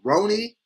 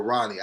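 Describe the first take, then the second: First: "Roni" said ROH-nee, long O; pronunciation check. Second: "Ronnie" said RAH-nee, open short O; pronunciation check. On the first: Asking a commenter how it's said, long-O "Roni". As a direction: lift "Roni" as the first option, long oh. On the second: Asking a commenter how it's said, short-O "Ronnie". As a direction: drop "Ronnie" as the second option, ah vowel. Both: Shown as a demonstration. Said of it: "I need to get this right".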